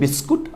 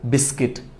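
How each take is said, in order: First: The second syllable is said as 'kut'. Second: The second syllable is said as 'kit'. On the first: The speaker calls it wrong. "ভুলটা হচ্ছে বিস্কুট" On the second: The speaker calls it right. "সঠিকটা হচ্ছে বিস্কিট"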